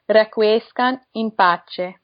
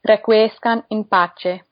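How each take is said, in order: The two takes are said the same way.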